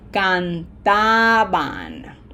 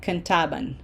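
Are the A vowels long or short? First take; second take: long; short. First: The A vowels are stretched out long. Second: The A vowels are clipped and short. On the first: The speaker calls it right. "So that's why I stretch it out" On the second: The speaker calls it wrong. "That is shortening the A's"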